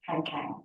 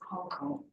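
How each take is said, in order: First: The name is said with an English pronunciation. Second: The name is said with a Korean pronunciation. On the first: "in English it would be Han Kang" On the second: "that's how it is pronounced in Korean"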